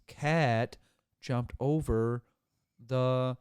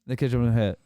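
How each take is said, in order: First: Loud, word by word with gaps; slow, over-enunciated. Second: Very loud rattled-off sentence; fast, run-on. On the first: Speaker enunciating for someone who missed it, slow and over-enunciated. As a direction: spell it out one slow word at a time. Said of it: "slow down and enunciate every word". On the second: Fast talker showing how he usually sounds, run-on and loud. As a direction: run it all together as one long word. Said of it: "You talk fast". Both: Shown as a demonstration.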